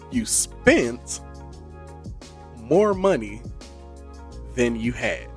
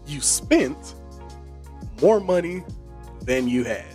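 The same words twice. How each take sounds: First: It is said slowly and deliberately. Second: It is said at a normal speed.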